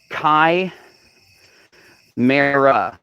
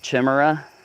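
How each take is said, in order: First: The first syllable rhymes with kite. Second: The first syllable does not rhyme with kite. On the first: "chai like kite, mare like air, and uh like duck" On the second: "I've always called him a chimera. That's just how I always pronounced it"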